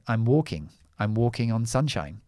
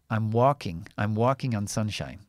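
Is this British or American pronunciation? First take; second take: British; American. First: The phrase is said in a British accent with rounded lips. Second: The phrase is said in an American accent with less rounded lips. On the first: "I say"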